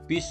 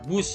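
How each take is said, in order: First: The word has an 'i' vowel. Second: The word has a 'u' vowel. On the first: The speaker calls it wrong. "bis salah" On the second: The speaker calls it right. "bus yang benar"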